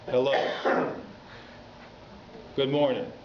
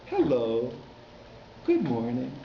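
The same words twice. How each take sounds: First: "Good morning" with the tune dropping flat at the end; falling intonation. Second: "Hello, good morning" with the tune lifting at the end; rising intonation. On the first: Rabbi showing the wrong way to greet a kid, falling tune. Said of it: "with a descending intonation". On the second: Rabbi showing how to greet a small child, rising tune. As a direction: greet the kid so each phrase rises. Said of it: "speak to children with a rising intonation". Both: Shown as a demonstration.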